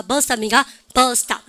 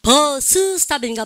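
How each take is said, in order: First: "버스 스탑" as one word, 버스탑; linked S. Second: "버스 스탑" slowly, both S syllables sounded; separate S's. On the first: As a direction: say the S only once in "버스 스탑". ("버스 스탑"을 버스탑으로) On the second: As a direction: split "버스 스탑" word by word. ("버스 스탑"을 따로따로) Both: Shown as a demonstration. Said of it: "겹치면 한 번만 발음".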